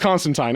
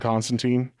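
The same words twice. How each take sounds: First: The last syllable rhymes with wine. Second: The last syllable sounds like teen. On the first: This is how the comic says it. "it is Constantine in the in the actual comic" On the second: This is the usual American way to say it. "how I pronounce J- John Constantine"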